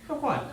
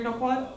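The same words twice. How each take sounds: First: "No quad." falling flat as a final answer; resigned statement. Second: "No quad?" asked with a rising end; questioning tone. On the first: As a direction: drop "No quad." down, accepting it. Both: Shown as a demonstration.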